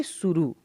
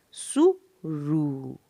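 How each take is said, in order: First: Said in the usual way. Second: सुरु slowly split into सु and a long रु; slow teaching demo of सुरु in two parts; syllable by syllable. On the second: Shown as a demonstration. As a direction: sound out सु, pause, then stretched रु. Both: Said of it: "मैं पढ़ के सुनाऊँगी".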